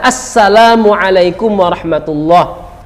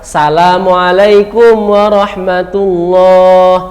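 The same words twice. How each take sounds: First: The opening vowel is clearly pronounced in the greeting. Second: The opening vowel is dropped from the greeting. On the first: The speaker calls it right. "tidak boleh alifnya dihilangkan. Harus dibaca" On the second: The speaker calls it wrong. "Apa kesalahan salam yang kita baca?"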